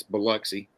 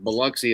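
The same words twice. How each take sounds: First: Biloxi said as "bi-LUCK-see", short "uh" in the middle; local pronunciation of Biloxi. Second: Biloxi said as "bi-LOCK-see", open "ah" in the middle; wrong pronunciation of Biloxi. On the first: Host correcting listeners on the town, Biloxi as "bi-LUCK-see". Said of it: "it's Biloxi". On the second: Host showing how outsiders misread the town, Biloxi as "bi-LOCK-see". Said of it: "is not Biloxi". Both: Shown as a demonstration.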